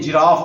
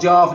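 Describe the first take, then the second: First: The word is said in full, with every sound. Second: The word is clipped, like a small child's speech. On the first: The speaker calls it right. "नहीं जिराफ" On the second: The speaker calls it wrong. "बच्चों के अंदाज में ना बोलें"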